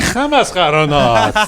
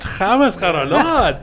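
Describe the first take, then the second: First: It is said in a sad, upset tone. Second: It is said in a happy, delighted tone.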